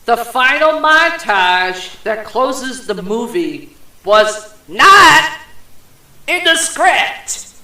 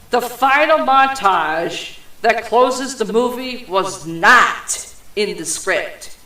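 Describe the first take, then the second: First: It is said loudly with much energy. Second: It is said at a normal volume.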